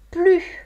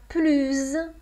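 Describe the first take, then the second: First: The final s is not sounded at all. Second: The final s is sounded as z. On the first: "On a plus devant un adjectif ou un adverbe qui commence par une consonne" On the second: "on a plus quand on a un adjectif ou un adverbe qui commence par une voyelle"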